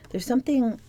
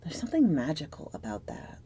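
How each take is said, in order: First: Higher, brighter retake of the whispered line; lifted wonder. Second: Breathy whisper, letting it sink in; soft secretive whisper over the card; hushed whisper. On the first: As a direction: say it again up high, marvelling. Same words repeated, lifted up. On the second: Tarot reading, hushed moment. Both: Acted.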